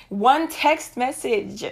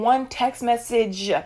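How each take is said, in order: First: "one text message" drawn out slowly, word by word; emphatic repeat. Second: Said in the usual way. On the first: Real, not acted. Driving the point home to viewers, "one text message" slow and emphatic.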